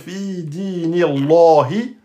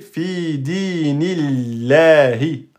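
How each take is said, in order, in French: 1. Le L dans Allah sonne épais et emphatique. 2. Le L dans Allah sonne fin et mince. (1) "on va pas dire fi dinillahi" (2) "de façon amincie"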